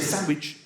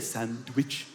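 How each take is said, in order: First: The D in the middle is left silent. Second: The D in the middle is clearly pronounced. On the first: The speaker calls it right. "You say sandwich. Because it's silent" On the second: The speaker calls it wrong. "You don't say sandwich"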